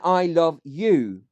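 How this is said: The stress is on "you".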